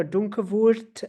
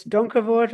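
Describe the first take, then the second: First: Donkervoort with a Dutch "oo", ending "voort" like "vurt"; mock Dutch pronunciation. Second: Donkervoort with English vowels, rhotic ending "vort"; English-style pronunciation. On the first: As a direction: Donkervoort said slowly with a pseudo Dutch vowel. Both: Shown as a demonstration. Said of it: "very pseudo, Dutch accent".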